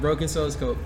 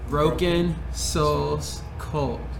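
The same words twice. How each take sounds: First: The name is said at a normal pace. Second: The name is said slowly.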